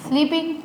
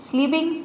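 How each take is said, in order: No difference in how they are said.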